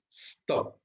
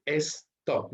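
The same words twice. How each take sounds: First: "Stop" as one sound, no e before the s; one syllable. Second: "stop" split as "es-top", with an e before the s; wrong extra syllable. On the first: Teacher correcting the syllable count, "Stop" in one clean sound. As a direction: say "Stop" in a single beat from the hissed s. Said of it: "un solo sonido, no es stop". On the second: Teacher warning against the Spanish habit, "stop" said as "es-top". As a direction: mispronounce "stop" in two beats, "es... top". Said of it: "no es stop". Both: Shown as a demonstration.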